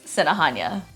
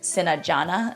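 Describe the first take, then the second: First: The consonant after 'Sina' is an h sound. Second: The consonant after 'Sina' is an English j sound. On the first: The speaker calls it right. "the English equivalent J is pronounced as ha" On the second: The speaker calls it wrong. "I wouldn't say Sinajana"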